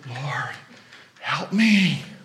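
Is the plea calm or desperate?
desperate. It is said desperately, pleading urgently.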